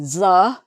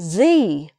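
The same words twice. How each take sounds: First: The word ends in a short, weak 'uh' vowel. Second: The word ends in a long 'ee' vowel. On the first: It comes before a consonant sound. "before a consonant you say the" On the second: It comes before a vowel sound. "before a vowel sound you say the"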